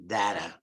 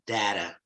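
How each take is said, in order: First: It is said with an American pronunciation. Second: The same.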